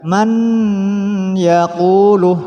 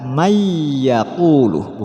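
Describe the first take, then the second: First: The n sound is said apart from the y. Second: The n sound blends nasally into the y. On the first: The speaker calls it wrong. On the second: The speaker calls it right. "jadinya dibaca"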